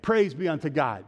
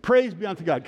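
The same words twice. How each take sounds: First: Said in the usual way. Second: Emphatic, heartfelt liturgical response; like meaning it. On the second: Shown as a demonstration. Preacher coaching congregation to recite, with conviction. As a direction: say it with more conviction. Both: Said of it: "Say it like you mean it".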